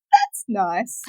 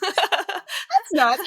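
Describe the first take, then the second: First: Mimics the colleague's dull "That's nice."; flat, unimpressed. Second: "That's nice." said high through real laughter; laughing. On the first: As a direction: say "That's nice." blankly, with no interest. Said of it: "And she goes". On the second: Real, not acted. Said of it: "Well, that's nice".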